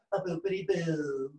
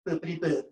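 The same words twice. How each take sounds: First: Slow, drawn-out mock Trump; Colbert as Trump. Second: Short, cutesy mock Trump; Fallon as Trump. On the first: Winding down nonsense, a slow hush Trump impression. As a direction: trail out slowly in a put-on Trump voice. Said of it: "Colbert is more hush in his approach". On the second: Shaking shoulders on camera, a playful Trump impression. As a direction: toss it off playfully as a cute Trump. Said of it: "Fallon is much more cute and playful in his approach".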